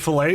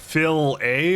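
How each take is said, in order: First: It sounds like the word 'filet'. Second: It sounds like 'Phil' followed by 'A'. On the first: The speaker calls it wrong. "I say filet? No, no, not filet" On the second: The speaker calls it right. "It's like Phil A or something"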